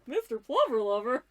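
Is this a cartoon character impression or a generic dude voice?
cartoon character. It is said in a cartoon character impression voice. "I could do an impression of Shaggy from Scooby Doo"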